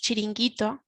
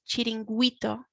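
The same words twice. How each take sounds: First: No u sound is heard after the g. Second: A u sound is heard after the g. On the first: The speaker calls it right. "You can't actually hear the U" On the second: The speaker calls it wrong. "otherwise it would sound like chiringuito"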